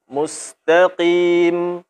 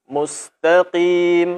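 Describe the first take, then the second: No difference in how they are said.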